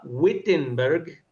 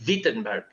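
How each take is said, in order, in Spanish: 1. El nombre empieza con sonido W. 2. El nombre empieza con sonido V. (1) "toda la vida yo lo pronunciaba Wittenberg" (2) "los alemanes pronuncian la W como V. Entonces ellos dirían Wittenberg"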